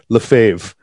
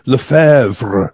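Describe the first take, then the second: First: The name is said in a shortened, anglicized form. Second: The name is said with a French pronunciation. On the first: "we just shorten it up and say Lefebvre" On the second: "in French, they would say something like Lefebvre"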